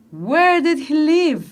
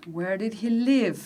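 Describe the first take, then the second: First: Slow, punching "Where" in "Where did he live?"; stress on WHERE. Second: Slow and softer, leaning on "live" in "Where did he live?"; softer second take. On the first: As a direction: hit "Where" hard. (la maestra enfatiza "Where" despacio) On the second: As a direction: say it gently, stressing "live". (repetición suave con énfasis en "live") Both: Shown as a demonstration. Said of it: "poner énfasis en estas preguntas".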